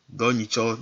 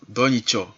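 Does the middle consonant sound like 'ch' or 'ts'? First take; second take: ch; ch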